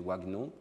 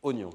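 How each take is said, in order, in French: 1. Le mot commence par un son 'wa'. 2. Le mot commence par un son 'o'. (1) "suivant les règles de conversion graphème-phonème, on devrait prononcer wagnon" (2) "la prononciation de ce mot, stockée dans le système lexical, c'est « oignon »"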